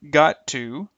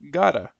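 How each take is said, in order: First: Both words are said fully and separately. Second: The words blend into one short reduced form. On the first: "the original forms" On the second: "the reduced forms"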